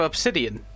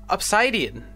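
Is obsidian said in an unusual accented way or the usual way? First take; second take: usual; accented. First: Obsidian is said in the usual, expected way. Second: Obsidian is said in an unusual, accented way. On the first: This is the expected pronunciation. "instead of obsidian" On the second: This is how the character pronounces it. "I'm not making fun of his accent. I just didn't expect him to say obsidian"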